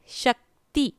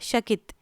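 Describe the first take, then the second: First: The i vowel follows the t sound. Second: The i vowel follows the k sound. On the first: The speaker calls it right. "शक्ति ना कि शकित" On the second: The speaker calls it wrong. "आपने क को ई पढ़ा"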